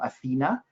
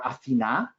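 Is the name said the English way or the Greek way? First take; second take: English; Greek. First: The name is said with an English pronunciation. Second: The name is said with a Greek pronunciation.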